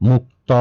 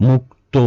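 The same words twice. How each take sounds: No difference in how they are said.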